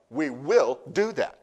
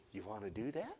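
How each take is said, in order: First: Slow, firm and louder declaration; strong. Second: Soft, sweet invitation with a little laugh. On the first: Pastor declaring to the congregation, strong and slow. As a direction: plant each word with conviction. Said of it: "Let me say it strong". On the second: Pastor sweetly asking the congregation, soft and gentle. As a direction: coax them gently, half laughing. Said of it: "I'd say it's sweet". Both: Shown as a demonstration.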